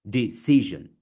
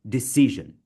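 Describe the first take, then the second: The two takes are said the same way.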